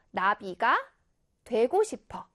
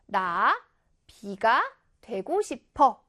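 First: 나비가 as one word, pause, then 되고 싶어; pause after 나비가. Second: 나 alone, pause, then 비가 되고 싶어; pause after 나. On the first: Teacher reading a sample for pupils, 나비가 unbroken, then a pause. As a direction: keep 나비가 together and break before 되고 싶어. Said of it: "선생님이 이렇게 띄어 읽어볼게요". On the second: Teacher showing pupils the other break, pause between 나 and 비가. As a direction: split 나비가 into 나 and 비가 with a clear pause. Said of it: "이렇게 띄어 읽으면". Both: Shown as a demonstration.

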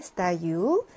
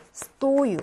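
First: 스타유 with the stress on its final 유, the first vowel reduced to "a"; stress on the ending. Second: 스토유 with a long, higher stressed 토 and a full "o"; stress on first vowel. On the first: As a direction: drag out and stress the last syllable of 스타유. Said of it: "강세가 뒤에 있습니다". (스타유의 마지막 '유'에 강세) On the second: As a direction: hit the 토 in 스토유, letting 유 follow unstressed. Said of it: "계속 여기 앞에 강세가 있어요". (스토유의 앞쪽 '토'에 강세) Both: Shown as a demonstration.

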